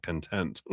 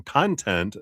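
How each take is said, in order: First: "content" said kun-TENT; weak first syllable in "content", weight on TENT; stress on second syllable. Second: "content" said slowly as KON-tent; open, stressed KON at the start of "content"; stress on first syllable. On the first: Streamer ruling out the old reading, "content" as kun-TENT. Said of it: "content, not content". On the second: Streamer guessing a screen name, "content" as KON-tent. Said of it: "not content". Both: Shown as a demonstration.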